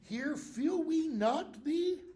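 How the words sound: The voice rises at the end, like a question. It asks whether we feel the penalty. The speaker calls it wrong. "It's not a question. He's not saying"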